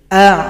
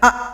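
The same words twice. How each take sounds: First: The sound flows on slightly in the throat. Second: The sound is stopped abruptly in the throat. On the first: The speaker calls it right. "kalau ain mengalir sedikit" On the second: The speaker calls it wrong. "Jangan dibaca a, kalau a kurang tepat, karena itu adalah hamzah"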